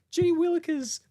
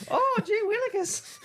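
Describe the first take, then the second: First: Very high fussy Muppet voice; high-pitched mock of a friend; doing co-host's voice. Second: Very high, slow squeaky quote; exaggerated high puppet impression; mock co-host voice. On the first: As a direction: squeal it like a flustered puppet. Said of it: "Oh, you're doing me". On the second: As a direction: drawl it out high and silly. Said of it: "you're doing me".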